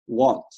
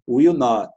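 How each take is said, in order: First: It is said as one short contracted word. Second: It is said as two separate full words.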